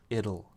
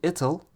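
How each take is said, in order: First: The middle consonant is a soft D sound. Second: The middle consonant is a clear T sound. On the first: "we will change the T to a D sound" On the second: "You can say it'll, but it's a little tough"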